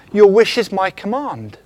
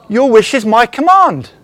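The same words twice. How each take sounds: First: Said in the usual way. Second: Breathy, laughing whisper of a mock genie; genie granting a wish. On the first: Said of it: "He's like the genie in the lamp". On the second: Preacher voicing the genie from Aladdin, breathy and amused. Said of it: "And what does the genie say?".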